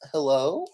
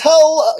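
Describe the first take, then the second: First: The voice rises at the end. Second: The voice falls at the end.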